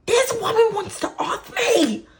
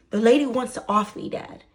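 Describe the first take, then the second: First: High, very loud comic yell; exasperated shout. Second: Loud, emphatic retold plea; exasperated insistence. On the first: Retold or imitated. Daughter to her laughing dad, exasperated shout. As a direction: shriek it in disbelief at dad. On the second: Daughter insisting to her dad, loud exasperation. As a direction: push the first words hard, then drop off on Dad. Restates it to dad, less shouted.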